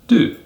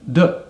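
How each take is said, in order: First: The word is said with a full vowel. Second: The word is said with a reduced vowel. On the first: "That's the strong form" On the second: "which is the weak form"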